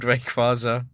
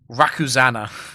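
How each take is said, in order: First: The name is said as Ray-qua-za. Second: The name is said as Ra-ku-za-na. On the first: The speaker calls it right. "what my friend's, my brother's friend called Rayquaza" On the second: The speaker calls it wrong. "I think the worst pronunciation I remember"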